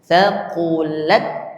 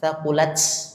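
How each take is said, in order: First: The word ends in a clean t, no hiss. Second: The final t is followed by a hissing s. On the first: The speaker calls it right. "tempelkan huruf ta itu menempel" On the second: The speaker calls it wrong. "menghafalnya pakai S gitu"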